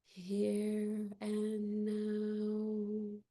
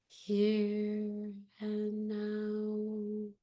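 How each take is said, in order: No difference in how they are said.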